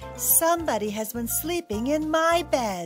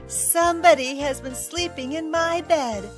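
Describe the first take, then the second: First: It is said in a medium, grumbling voice. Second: It is said in a loud, small, shrill voice.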